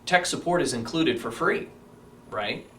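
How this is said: The voice sounds firm and confident. The offer is firmly expected. The speaker calls it right. "much more powerful"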